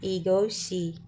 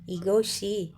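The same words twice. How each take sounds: First: The final consonant is said as an sh sound. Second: The final consonant is said as an sh sound.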